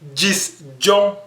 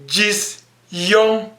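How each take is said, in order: First: The second word begins with a J sound. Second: The second word begins with a Y sound. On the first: The speaker calls it right. "je vais dire Gis John" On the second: The speaker calls it wrong. "je ne veux pas dire Gis, Yon"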